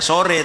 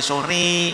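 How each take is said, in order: First: The final vowel is a plain ordinary e. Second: The final vowel is pulled strongly toward i. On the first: The speaker calls it wrong. "harus tidak sore" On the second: The speaker calls it right. "tapi sore"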